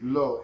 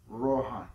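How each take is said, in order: First: The name starts with a plain L sound. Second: The name starts with a rolled R sound. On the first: This is the usual English way of saying it. "in the English language, we pronounce it" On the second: This is the traditional way of saying it. "traditionally, it was pronounced Rohan with a rolling aura"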